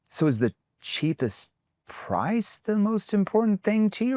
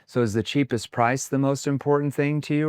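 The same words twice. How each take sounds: First: The word cheapest is said with a disparaging tone. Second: The whole question is said in a flat monotone. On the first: The speaker calls it right. "See how my tone makes that sound what? Like it's going to break, like it's going to be horrible, like it's cheap" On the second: The speaker calls it wrong. "your tone sounded monotone"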